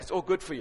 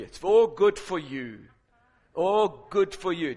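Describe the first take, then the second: First: Said in the usual way. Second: "good for you" stretched slow and emphatic; slow right down and lean on "good for you"; drawn-out emphasis. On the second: Real, not acted. Repeats it slowly for emphasis.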